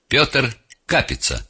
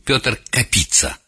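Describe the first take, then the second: First: The surname is stressed on its first syllable. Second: The surname is stressed on its second syllable.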